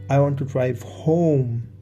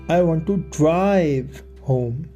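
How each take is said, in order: First: The word "home" is stressed. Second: The word "drive" is stressed. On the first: Home is the destination rather than elsewhere. "Home is where I want to go" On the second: The speaker wants to take the car, not a taxi. "I want to take the car, not get a taxi"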